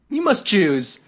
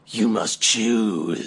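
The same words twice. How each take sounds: First: It is said in a plain, ordinary voice. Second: It is said in a dramatic put-on voice. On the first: The speaker calls it wrong. "I did the voice wrong" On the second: The speaker calls it right. "There we go"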